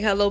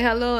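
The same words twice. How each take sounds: First: Muffled hello through a mouthful of food; mouth full. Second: Said in the usual way. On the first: Retold or imitated. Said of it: "I had food in my mouth ... it sounded muffled".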